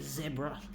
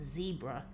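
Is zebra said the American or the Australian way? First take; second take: Australian; American. First: The word is said the Australian way. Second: The word is said the American way. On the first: "we Aussies, I think, call it zebra typically" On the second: "I think the Americans call it zebra"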